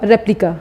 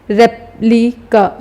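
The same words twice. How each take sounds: First: Said in the usual way. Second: replica slowly as रेप, लि, का; syllable by syllable. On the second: Shown as a demonstration. Teacher breaking the word down, replica in slow separate syllables. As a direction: put a pause after each part of replica. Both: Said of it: "पहले हम रेप बोलेंगे फिर लिका".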